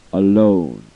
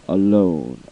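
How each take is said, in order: Both takes have the same delivery.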